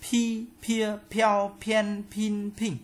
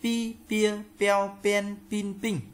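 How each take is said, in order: First: "Pi, pia, peo, pen, pin, ping" high and level, each p with a puff of air; aspirated p drill. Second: "Pi, pia, peo, pen, pin, ping" high and level, no puff of air; high, even syllables "Pi, pia, peo, pen, pin, ping", p without aspiration; unaspirated p drill. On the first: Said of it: "Chữ P bật hơi". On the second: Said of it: "đọc thành chữ P". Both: Shown as a demonstration.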